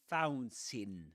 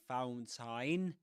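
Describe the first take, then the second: First: The second syllable has a reduced, weak vowel. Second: The second syllable has a full 'a' vowel. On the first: The speaker calls it right. "but fountain" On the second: The speaker calls it wrong. "You don't say fountain"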